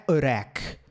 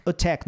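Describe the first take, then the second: First: "attack" with the T softened to a tap; wrong tapped T. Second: "attack" with a fully sounded T; correct crisp T. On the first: Teacher showing what it is not, tapped T. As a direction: say "attack" like uh-RACK. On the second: Teacher giving the right form, crisp T. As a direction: say "attack" as uh-TACK. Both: Shown as a demonstration. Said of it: "não é attack".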